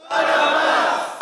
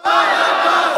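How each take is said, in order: First: Crowd shout. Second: Loud, unvoiced crowd shout; louder crowd shout. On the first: Pretend. Preacher playing the crowd, shouting for Barabbas. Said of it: "you must scream". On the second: Preacher coaching the crowd, shouting for Barabbas louder. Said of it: "you can do better than that".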